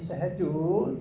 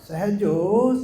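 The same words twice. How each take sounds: First: The name is called loudly. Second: The name is called very loudly.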